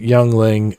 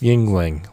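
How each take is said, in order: First: The first syllable sounds like 'young'. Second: The first syllable sounds like 'ying'. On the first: The speaker calls it wrong. "I pronounced it Youngling" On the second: The speaker calls it right. "it's Yingling, like Yin Yang"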